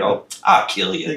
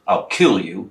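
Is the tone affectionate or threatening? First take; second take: affectionate; threatening. First: It sounds affectionate and playful, meant as a hug. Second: It sounds threatening, like a real intent to hurt.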